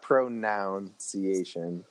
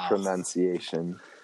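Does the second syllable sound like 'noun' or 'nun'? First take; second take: noun; nun. First: The second syllable sounds like 'noun'. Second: The second syllable sounds like 'nun'. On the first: The speaker calls it wrong. "It's not pronunciation" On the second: The speaker calls it right. "It is pronunciation"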